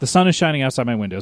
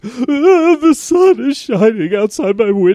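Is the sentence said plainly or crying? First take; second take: plainly; crying. First: It is said plainly, without emotion. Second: It is said in a crying voice.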